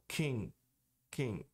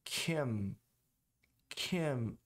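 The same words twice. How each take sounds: First: "Kim" said like "king"; unclosed M. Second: "Kim" closed on the lips; full final M. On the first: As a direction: keep lips apart ending "Kim". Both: Shown as a demonstration. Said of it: "e não Kim".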